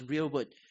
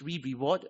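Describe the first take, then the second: First: The word has two syllables, starting like rear. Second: The word has three syllables, starting re-re. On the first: The speaker calls it right. "the right pronunciation actually is real word" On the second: The speaker calls it wrong. "A very common pronunciation is re-reward"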